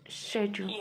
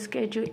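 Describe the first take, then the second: First: The word is said the British way. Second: The word is said in a non-British way. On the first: "British English" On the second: "You can say schedule if you want to"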